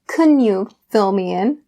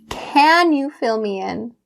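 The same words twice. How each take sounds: First: The word 'can' is weak and unstressed. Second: The word 'can' is clear and stressed. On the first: The speaker calls it wrong. "So I don't say" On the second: The speaker calls it right. "you can hear it very clearly because it is a question"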